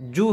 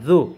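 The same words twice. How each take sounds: First: The consonant is pronounced hard. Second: The consonant is pronounced soft. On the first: The speaker calls it wrong. "জু হবে না" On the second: The speaker calls it right. "জু নরম করে"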